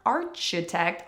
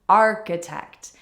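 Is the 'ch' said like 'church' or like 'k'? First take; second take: church; k. First: The ch is said as in church. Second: The ch is said as a k sound. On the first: The speaker calls it wrong. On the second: The speaker calls it right.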